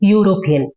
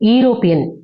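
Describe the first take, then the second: First: The word begins with a 'yoo' sound. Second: The word begins with an 'ee' sound. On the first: The speaker calls it right. "யூ ஓட pronunciation தான் first வரணும்" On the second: The speaker calls it wrong. "ஈரோப்பியன் கரெக்டான pronunciation கிடையாது"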